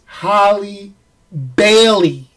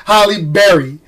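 First: Halle Bailey, slowed, with Bailey set apart as BAY-lee; careful corrected pronunciation. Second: Said in the usual way. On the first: Shown as a demonstration. Host correcting his accent's slip, careful pronunciation. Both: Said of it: "It made [name] sound like Barry".

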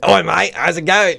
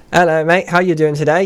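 First: Put-on higher-pitched rough London accent; rough British accent. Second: Put-on higher-pitched, tidier British accent. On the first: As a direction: throw out a rough British greeting. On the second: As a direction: greet a mate in a British accent, voice raised in pitch. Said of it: "So instead of saying".

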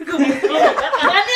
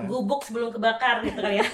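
First: Laughing through the words; cracking up while repeating it. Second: Said in the usual way. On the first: Real, not acted.

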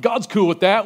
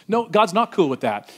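First: Raised, breezy mock voice, rising on "God's"; mock-casual shrug of a line; flippant mock claim. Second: Flat-out denial, "God's" coming down in a fall; preacher's firm rebuttal; firm correction. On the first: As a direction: toss off "God's cool with that" like it's obvious. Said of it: "someone that doesn't care what God". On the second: Real, not acted. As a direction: shut the claim down plainly.

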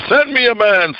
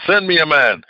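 First: High blustering challenge; boasting Goliath. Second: Lighter, near-usual echo of the boast; Goliath repeats. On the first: Preacher voicing Goliath's challenge, high boastful call. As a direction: bellow it like a bragging giant. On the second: Preacher voicing Goliath's echoed challenge, lighter repeat. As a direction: let the challenge fall back. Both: Retold or imitated. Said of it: "blustering and boasting and said".

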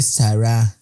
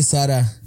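First: "Sara" stretched slowly, weight on the final a; mock correct pronunciation. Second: Said in the usual way. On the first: Imitating the TikTok girl, mock-teacherly slow "Sara". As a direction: draw "Sara" out as a pompous correction. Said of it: "se dice Sara". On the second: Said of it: "No se dice Sara".

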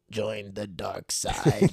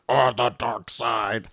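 First: Slow, drawn-out villain voice; Darth Sidious. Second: Slow, put-on attempt at a villain; copied villain voice. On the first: Retold or imitated. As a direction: imitate a kid playing the evil overlord. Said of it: "he talks like this". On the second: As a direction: imitate a kid copying the evil voice. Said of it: "Juliana tries to copy".

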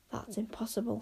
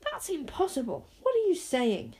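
First: Soft, disbelieving inner voice; hushed thought. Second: High, protesting disbelief; incredulous. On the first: A narrator's reading. Zara privately doubts the flying heart, hushed thought. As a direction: think it aloud, very softly. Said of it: "thought Zara". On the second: Acted. Wish disputes her friends' account, incredulous. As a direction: object in a higher, baffled voice.

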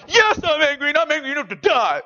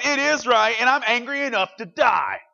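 First: Loud, high whiny sulk; pouting Jonah. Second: Loud, high and defiant; angry Jonah. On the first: Retold or imitated. Preacher imitates Jonah sulking at God, loud and whiny. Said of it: "picture Jonah pouting". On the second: Acted. Jonah tells God he is angry, loud and defiant. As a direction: throw the answer back at God.

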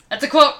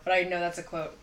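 First: Louder, punchy declaration; emphatic exclaim. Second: Said in the usual way. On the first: Acted. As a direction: land it like a punchline.

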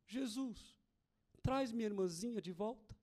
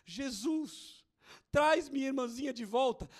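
First: Soft, hushed little prayer; very quiet plea. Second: Fuller-voiced pleading prayer; child's plea repeated. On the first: Retold or imitated. Little girl praying for her sister, hushed pleading. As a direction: pray it low, like a small child. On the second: Little girl praying for her sister, insistent pleading. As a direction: plead it out, no longer hushed. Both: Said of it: "E ela só dizia baixinho".

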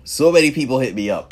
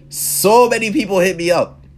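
First: Quick echo. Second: "So many people hit me up" said higher and louder, leaning on "so"; emphatic first statement. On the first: Echoing how friends reached out, a quicker repeat. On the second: Telling how friends reached out, loud and emphatic. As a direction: stress "so" as the point lands. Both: Real, not acted.

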